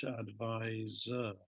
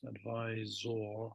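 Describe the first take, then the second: First: "advisor" very slowly, ending in a weak -zer; spelling pronunciation. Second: "advisor" drawn out slowly, ending in a full -ZOR; spelling pronunciation. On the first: Teacher showing the British spelling, "advisor" slowly with an -er ending. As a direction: stretch "advisor" and end it on "er". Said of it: "British English". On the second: Teacher showing the American spelling, "advisor" slowly with a clear -or ending. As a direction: stretch "advisor" and sound the last syllable as "or". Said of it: "In American English". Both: Shown as a demonstration.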